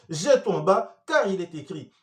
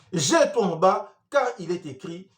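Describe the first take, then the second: Both takes have the same delivery.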